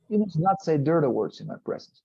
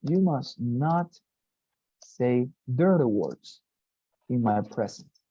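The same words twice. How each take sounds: First: Said in the usual way. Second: Each phrase slow and separate; slow dictation. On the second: Shown as a demonstration. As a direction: spell it out slowly for the students.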